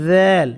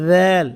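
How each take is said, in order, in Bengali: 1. এটা নরম 'dh' দিয়ে শুরু হয়। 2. এটা নরম 'dh' দিয়ে শুরু হয়।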